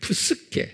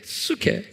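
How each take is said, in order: First: The initial p sound is pronounced. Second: The initial p sound is silent.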